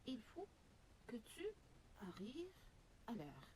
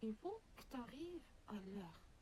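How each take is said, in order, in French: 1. Chaque mot est prononcé en entier, y compris il et tu. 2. Le il est omis et le tu est contracté devant arrives. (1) "Voici une phrase toute simple" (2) "très souvent, les Français vont dire"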